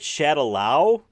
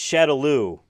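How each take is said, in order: First: The name is said the way the movie says it. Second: The name is said the way the games say it. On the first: The speaker calls it wrong. "it's not called Shadaloo" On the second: The speaker calls it right. "That's how everyone pronounces it in the games"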